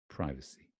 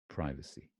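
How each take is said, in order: First: It is said with an American pronunciation. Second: It is said with an American pronunciation.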